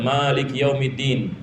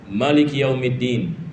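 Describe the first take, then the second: First: The vowel after the m is drawn out long. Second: The vowel after the m is kept short. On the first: This is the usual reading in the local mosques. "bacaan biasa" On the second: This is another valid reading, as heard in Yemen. "yang tidak yakni memanjangkan mim"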